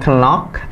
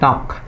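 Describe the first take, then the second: First: The k at the start is pronounced. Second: The k at the start is silent. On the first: The speaker calls it wrong. "Bukan knock" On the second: The speaker calls it right. "tapi knock. K-nya nggak dibaca"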